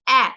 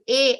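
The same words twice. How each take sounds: First: The vowel is said short, not like its name. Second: The vowel is said long, like its letter name. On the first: The speaker calls it wrong. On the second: The speaker calls it right.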